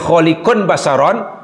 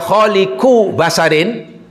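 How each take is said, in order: First: The first word ends in -un, the second in -on. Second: The first word ends in -u, the second in -in. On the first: The creation will happen in the future. "Kalau dibaca khaliqun basyaron, aku akan menciptakan manusia" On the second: The creation has already happened. "Tapi kalau dibaca khaliqu basyarin, aku telah menciptakan manusia"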